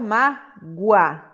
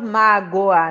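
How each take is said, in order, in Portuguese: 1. O o é fraco, deslizando para o a. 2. O o é uma vogal plena e separada. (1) "Eu falo mágoa" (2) "Eu não falo mágoa"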